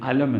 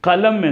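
First: The word begins directly with a vowel sound. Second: The word begins with a clear k-like consonant. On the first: "അലം എന്നവർ പറയും" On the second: "അത് രണ്ടുമല്ലാത്ത കലം"

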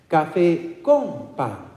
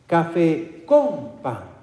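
Both takes have the same delivery.

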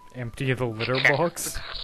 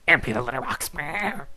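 First: It is said in a normal voice. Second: It is said in a weird bug voice.

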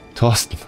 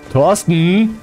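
First: The name is said in a plain, neutral way. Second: The name is called out like a scolding mother.

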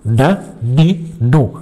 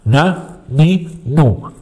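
The two takes are said the same way.

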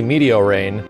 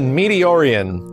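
First: The name ends with the word 'rain'. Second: The name ends with an 'ee-an' sound. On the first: The speaker calls it right. "it's obviously Meteorain" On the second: The speaker calls it wrong. "I used to pronounce it Meteorian"

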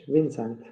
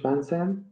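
First: The name is pronounced the English way. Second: The name is pronounced the French way. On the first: "English Vincent" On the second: "French Vincent"

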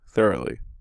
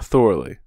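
First: The word has a standard English pronunciation. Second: The word has a foreign-sounding, nonstandard pronunciation. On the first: The speaker calls it right. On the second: The speaker calls it wrong.

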